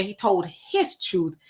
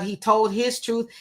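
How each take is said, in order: First: Slow, with weight on "his"; stress on HIS. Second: Said in the usual way. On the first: Real, not acted. Host disputing a viewer's comment, pointed stress on "his". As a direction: lean hard on "his", drawing the phrase out.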